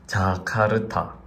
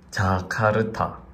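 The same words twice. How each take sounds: First: It is said with a Korean accent. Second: The same.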